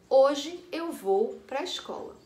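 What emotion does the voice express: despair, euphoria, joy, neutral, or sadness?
neutral. It is read flatly, with no emotion. "lida sem nenhuma intenção"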